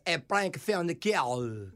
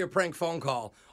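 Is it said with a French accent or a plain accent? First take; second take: French; plain. First: It is said in a put-on French accent. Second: It is said in his normal accent.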